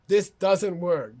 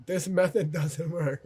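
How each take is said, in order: First: Slow, louder, "this doesn't work" weighted word by word; firm verdict. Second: Said in the usual way. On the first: Real, not acted. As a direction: land it slowly so it sticks.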